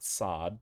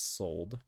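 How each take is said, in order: First: The syllable is said without an L sound. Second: The syllable is said with an L sound. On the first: The speaker calls it wrong. "It's not sod" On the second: The speaker calls it right. "there is an L, so it's sold"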